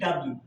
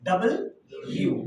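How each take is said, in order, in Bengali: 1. অক্ষরের নামটি মিলিয়ে এক শব্দে বলা হয়। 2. অক্ষরের নামটি দুটি শব্দ হিসেবে বলা হয়। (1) "এটা আমরা উচ্চারণ করি কি ডাব্লিউ, কিন্তু ডাব্লিউ না কিন্তু" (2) "দুইটা ইউটাকে এক করলে যেটা হয় ওটা হচ্ছে ডাবল ইউ"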